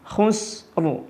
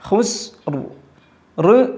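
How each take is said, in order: First: The final r has no echoing bounce. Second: The final r has an echoing bounce. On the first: The speaker calls it right. "കൽക്കലത്തില്ലാതെയാണ് ഉച്ചരിക്കേണ്ടത്" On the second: The speaker calls it wrong. "പറ്റൂല, അപ്പോൾ കൽക്കലത്ത് വന്നു"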